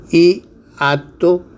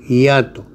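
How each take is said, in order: First: "hiato" en dos sílabas, i-ato, final ascendente; two separate syllables. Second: "hiato" en un solo golpe, ya-to; as a diphthong. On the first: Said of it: "con dos sílabas separadas". ("hiato" con sílabas separadas) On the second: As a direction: junta "hiato" en diptongo. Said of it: "con un diptongo". ("hiato" pronunciado con diptongo) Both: Shown as a demonstration.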